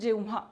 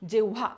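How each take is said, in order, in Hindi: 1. इस शब्द का उच्चारण हल्के नासिक "न" के साथ होता है। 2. इस शब्द का उच्चारण बिना किसी नासिक ध्वनि के होता है। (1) "आपण जेव्हा म्हणतो" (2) "जेव्हा असं न म्हणता"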